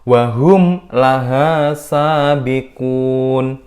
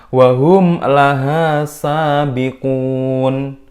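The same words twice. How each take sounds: Both takes have the same delivery.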